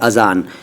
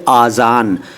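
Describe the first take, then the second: First: The first vowel is short, a. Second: The first vowel is long, aa. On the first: The speaker calls it right. "सही शब्द है अज़ान" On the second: The speaker calls it wrong. "फिर आज़ान"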